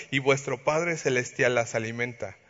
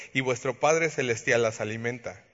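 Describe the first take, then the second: The two takes are said the same way.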